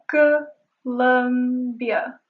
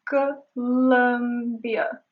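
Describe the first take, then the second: Both takes have the same delivery.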